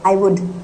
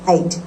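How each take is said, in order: First: It is said as two full words. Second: It is said as one contracted syllable. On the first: "आई हैड आई वुड को आप आइड" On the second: "इसकी जो pronunciation है ना वो आइड जाती है"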